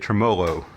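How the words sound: It is said in a country style.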